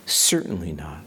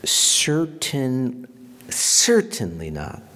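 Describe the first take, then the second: First: Hushed, firm whisper; whispered denial. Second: Firm and loud, a flat refusal; emphatic. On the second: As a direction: stamp out the idea, loud and final. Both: Retold or imitated. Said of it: "he says that emphatically".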